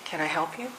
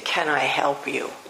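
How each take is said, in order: First: It sounds warm and welcoming. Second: It sounds cold and hostile. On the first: The listener is welcome. "If you have kind face and welcoming posture and you say" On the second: The listener is unwelcome. "if you're glaring at someone and you say"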